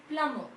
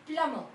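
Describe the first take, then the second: Both takes have the same delivery.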